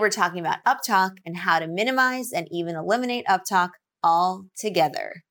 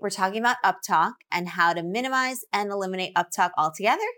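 First: The voice falls at the end. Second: The voice rises at the end. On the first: The statement sounds certain and confident. The speaker calls it right. "Much better" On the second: The statement sounds uncertain, like a question. The speaker calls it wrong. "One had rising intonation"

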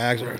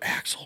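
First: The name is called loudly in a drawl. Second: The name is said softly in a whisper. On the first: The bird is far away. "that's when you hear that big southern drawl" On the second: The bird is close by. "do you just kind of whisper"

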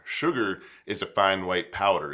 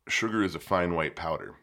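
First: It is said loudest of all. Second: It is said at normal, quieter volume.

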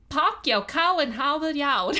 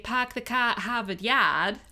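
First: It is said in a Yat accent. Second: It is said in a Boston accent.

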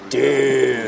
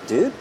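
First: It is said with a disappointed, exasperated tone. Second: It is said with a scared, alarmed tone. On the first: Someone has messed something up. "if someone's blowing it" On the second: Someone is in danger. "If someone's like waiting to kill you in their closet"

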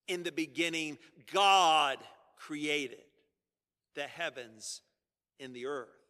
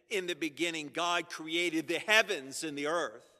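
First: The stress falls on God. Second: The stress falls on heavens and earth.

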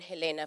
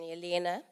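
First: The name is said in the speaker's usual way. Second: The name is said the way its owner says it. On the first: "then Helena for me" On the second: "first pronounce it the way you do"

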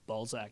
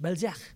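First: The name is pronounced the local English way. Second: The name is pronounced the French way. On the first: The speaker calls it wrong. "it's not Balzac, as you say it" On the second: The speaker calls it right. "It's French"

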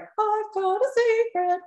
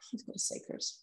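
First: It sounds excited and eager. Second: It sounds heavy and pained.

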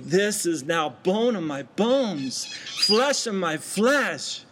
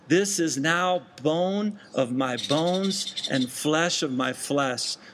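First: It is said with thankful passion. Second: It is read in a plain, even way.

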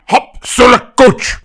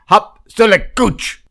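First: It is said in an angry warrior voice. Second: It is said in a plain, calm voice.

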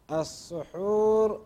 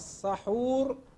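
First: The first vowel is an u sound. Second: The first vowel is an a sound. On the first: It names the act of eating the predawn meal. "بضم السين المشددة هو التسحر مصدر" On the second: It names the food that is eaten. "أما السحور بالفتح فإنه الطعام الذي يؤكل"

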